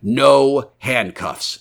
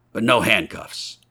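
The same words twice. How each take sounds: First: Very slow, higher, weighty "No handcuffs"; firm stipulation. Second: Said in the usual way. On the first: A narrator's reading. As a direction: draw out "No handcuffs" as a firm condition. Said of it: "stipulated the stranger".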